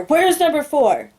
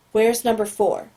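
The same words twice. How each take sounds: First: Higher, louder and slow, a furious yell; screamed demand. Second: Even, detached agent's query; calm, neutral question. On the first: Agent yelling at the prisoner over the speaker, furious shout. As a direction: blast it through the speaker, losing all calm. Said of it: "He screams through the speaker". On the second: Agent questioning the captive boy, calm and detached. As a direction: ask it coolly, no pressure. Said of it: "the calm voice is completely gone". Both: Acted.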